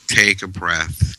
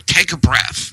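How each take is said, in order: First: Slow, gentle "Take a breath" as real guidance; calm instruction. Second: Mocking "Take a breath" with a high snap; sarcastic. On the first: Shown as a demonstration. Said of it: "This is how you do it". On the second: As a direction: toss off "Take a breath" dismissively. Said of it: "they say it sarcastically".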